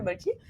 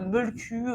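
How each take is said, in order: First: The word ends in an 'ee' vowel. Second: The word ends in an 'oo' vowel. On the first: This is the pronunciation most people use. "la prononciation qu'on entend le plus souvent" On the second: This is the supposedly proper pronunciation. "c'est censé se prononcer un Molku ou quelque chose comme ça"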